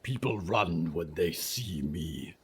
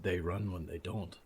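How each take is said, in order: First: Low, rumbling monster voice; low creature voice. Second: Soft hushed rueful reply; whispered. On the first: Creature speaks. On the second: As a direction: say it under your breath. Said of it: "Nolan whispered". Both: Acted.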